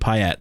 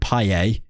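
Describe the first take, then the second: First: The name is said with an English pronunciation. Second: The name is said with a French pronunciation. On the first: This is how the name was said in England. "In England, he was Dimitri Payet" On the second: This is not how the name was said in England. "He wasn't Payet"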